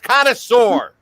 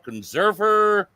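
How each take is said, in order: First: The word is pronounced like connoisseur. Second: The word is pronounced like conserver. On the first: The speaker calls it right. "It's connoisseur" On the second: The speaker calls it wrong. "People are calling it a conserver because of the way it's written on there"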